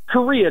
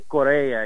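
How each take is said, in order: First: The name sounds like the country Korea. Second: The name has a Portuguese pronunciation. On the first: This is how the speaker says his own name. "just like the country" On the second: This is how an older Portuguese relative says it. "my grandfather would say Korea. You know, he's a good Portuguese"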